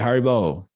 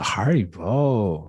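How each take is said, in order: First: It sounds like calling for someone's attention. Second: It sounds shy and bashful.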